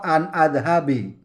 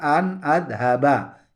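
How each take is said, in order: First: The last word ends in an i vowel. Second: The last word ends in an a vowel. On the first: The speaker calls it wrong. "atau an adhabi, tidak boleh" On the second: The speaker calls it right. "harus dibaca an adhaba"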